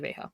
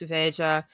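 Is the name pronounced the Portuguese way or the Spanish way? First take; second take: Spanish; Portuguese. First: The name is pronounced the Spanish way. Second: The name is pronounced the Portuguese way. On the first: "I say Veja because I'm I speak Spanish" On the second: "If you pronounce it in Portuguese though"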